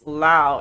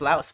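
First: The name ends without an s sound. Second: The name ends with an s sound. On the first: The speaker calls it right. "it's Lao" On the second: The speaker calls it wrong. "no, it's Laos"

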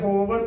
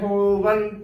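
First: The word is said without a nasal before t. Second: The word is said with a nasal before t. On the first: The speaker calls it wrong. "ਹੋਵਤ ਨਹੀਂ ਕਰਨਾ" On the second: The speaker calls it right. "ਹੋਵੰਤ ਉਚਾਰਨ ਕਰਨਾ ਹੈ"

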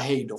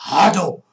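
First: The first vowel glides from a to i. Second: The first vowel is a single plain a. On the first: The speaker calls it wrong. "Não fala Raido" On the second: The speaker calls it right. "O japonês fala Rado"

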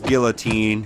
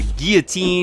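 First: The word is pronounced the English way. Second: The word is pronounced the French way. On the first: "English, it's Guillotine" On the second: "a Guillotine is in French, I think is how you say it"

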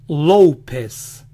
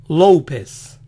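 The two takes are said the same way.

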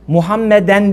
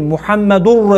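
First: The word ends with the sound -en. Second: The word ends with the sound -ur. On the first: The speaker calls it wrong. "değil" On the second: The speaker calls it right. "Orada mübteda haber ötre var"

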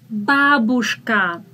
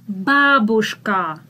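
Both takes have the same delivery.

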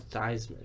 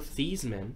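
First: The name rhymes with Heisman. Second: The name does not rhyme with Heisman. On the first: This is the family's changed pronunciation. "changed the pronunciation to" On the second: This is the family's original pronunciation. "His name was actually pronounced"

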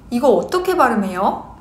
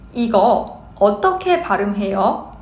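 First: The phrase is spoken quickly. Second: The phrase is spoken at normal speed. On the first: "Quick speed" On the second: "Normal speed"

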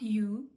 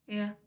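First: The word 'you' has a full, clear vowel. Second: The word 'you' is reduced to a weak 'ya'. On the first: The speaker calls it wrong. "Not you" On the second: The speaker calls it right. "дуже чітко воно при швидкому мовленні не вимовляється"

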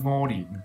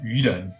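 First: It is read in the Minnan pronunciation. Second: It is read in the Mandarin pronunciation. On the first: "如果是用闽南语是窝林" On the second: "如果是普通话是愚人"

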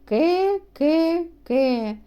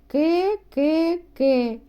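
Both takes have the same delivery.

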